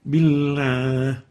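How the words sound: The l carries a nasal resonance. The speaker calls it wrong. "not billah. That's wrong"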